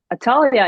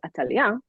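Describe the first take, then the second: First: Said in the usual way. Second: Atalia said the Hebrew way; Hebrew pronunciation. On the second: Shown as a demonstration. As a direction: say Atalia as a native Hebrew name. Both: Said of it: "in Hebrew we pronounce it as".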